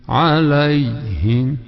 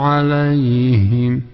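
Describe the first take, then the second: No difference in how they are said.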